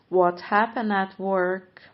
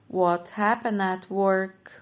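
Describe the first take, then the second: Both takes have the same delivery.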